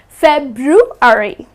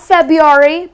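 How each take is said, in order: First: The first r sound is pronounced. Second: The first r sound is dropped. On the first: The speaker calls it right. "Please do not drop the R" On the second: The speaker calls it wrong. "They tend to drop the R, but that's incorrect"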